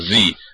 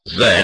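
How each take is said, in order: First: The letter name is said the American way. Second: The letter name is said the British way. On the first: "as the Americans would say" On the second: "as the English would say"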